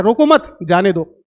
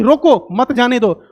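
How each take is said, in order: First: मत stressed and lower, a break before जाने दो; रोको मत, then a pause, then जाने दो. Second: रोको stressed, then a slow run of मत जाने दो. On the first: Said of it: "और ये कह रहा है". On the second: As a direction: lean on रोको and let the rest run on. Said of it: "ये कह रहा है कि". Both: Shown as a demonstration.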